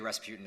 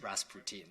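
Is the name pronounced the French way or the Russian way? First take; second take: Russian; French. First: The name is pronounced the Russian way. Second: The name is pronounced the French way. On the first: It names the Russian figure. The speaker calls it wrong. "it's not actually Rasputin" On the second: It names the Parisian restaurant. The speaker calls it right. "it's Rasputin, so it's different"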